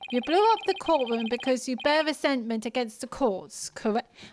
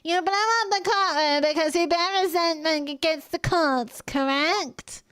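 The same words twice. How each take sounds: First: It is said in the speaker's ordinary voice. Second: It is said in a put-on prosecutor (Payne) voice.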